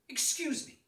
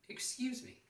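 First: The voice sounds firm and annoyed. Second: The voice sounds polite and patient. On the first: Someone has bumped into the speaker. "in a more derogatory manner if someone has bumped into me" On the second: The speaker is trying to get someone's attention. "because I'm politely trying to get their attention"

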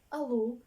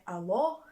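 First: The final vowel is a closed, quieter u-like sound. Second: The final vowel is an open, loud o. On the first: The speaker calls it right. "Вона в будиночку, через це вона не така голосна" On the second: The speaker calls it wrong. "не відкрите «о», не така голосна, дзвінка і відкрита, як у нас в українській"

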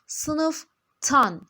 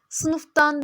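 First: The ending starts with a hard t sound. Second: The ending starts with a soft d sound. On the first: The speaker calls it right. "Buradaki F sert ünsüz sesi D'yi kendisine benzetmiş ve sertleştirmiş, T yapmış" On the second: The speaker calls it wrong. "Sınıftan demiyoruz"

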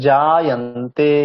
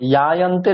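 First: The word begins with a j sound. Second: The word begins with a y sound. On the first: The speaker calls it right. "জ এটা বর্গীয় জ" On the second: The speaker calls it wrong. "ইয়ায়ন্তে নয়"

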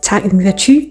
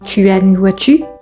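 First: Tu and as run together into one sound. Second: Tu and as are said as separate words. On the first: This is the casual spoken form. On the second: This is the textbook form.

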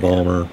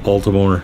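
First: The name is squeezed into two short syllables. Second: The name is said with all three syllables. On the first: This is how locals say it. "if you're from Balmer, you call it Balmer" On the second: This is how outsiders say it. "everybody else calls it Baltimore"

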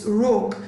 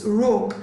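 First: The vowel is short, as in 'book'. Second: The same.

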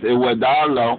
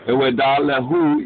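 First: The word ends in a shortened, contracted syllable. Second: The word ends with its full final syllables. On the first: "but it said as Iwedalo" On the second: "if you say Iwedalehu, as you practice, you will perfect"

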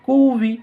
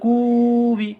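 First: The vowel is clipped with a sharp jolt. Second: The vowel is drawn out long. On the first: The speaker calls it right. "এটা ধাক্কার মতন হবে" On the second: The speaker calls it wrong. "কেউ যদি বলে কুবি কিন্তু টান হয়ে যাচ্ছে, এটা হবে না"

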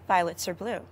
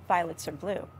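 The two takes are said the same way.

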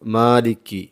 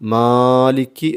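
First: The long vowel has its normal length. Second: The long vowel is stretched far too long. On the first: The speaker calls it right. "അതായത് മാലിക് എന്നേ ഓതാവൂ" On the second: The speaker calls it wrong. "അമിതമായി നീട്ടുന്നത് കേട്ടിട്ടുണ്ട്. എന്നാൽ അങ്ങനെ ഓതരുത്"

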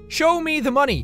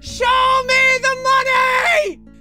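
First: The phrase is said at normal volume. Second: The phrase is shouted loudly. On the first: The speaker calls it right. "I'll say it properly this time" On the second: The speaker calls it wrong. "I kind of shouted that all over the mountains"

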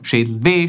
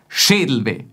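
First: The stress falls on the final weh part. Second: The stress falls on the Schädel part. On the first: "Oder wir betonen auf W. Dann klingt so" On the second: "Entweder wir betonen Schädel, dann klingt es so"

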